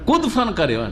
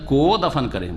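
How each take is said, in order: First: Ko is run together into kudfan. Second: Ko is said as a separate word. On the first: When the dead person jumps. The speaker calls it wrong. "কোটাকে দালের কাছে দফানের সাথে করে দিয়েছে" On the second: When the dead person is buried. The speaker calls it right. "মৃত ব্যক্তিকে যখন দফন করবে"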